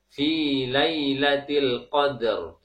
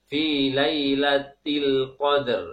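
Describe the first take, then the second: Both takes have the same delivery.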